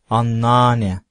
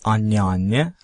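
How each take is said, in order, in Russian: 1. Слово сокращается до annane. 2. Каждый слог произносится: anne anne. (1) "они всегда говорят аннане" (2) "турки никогда не говорят анне-анне"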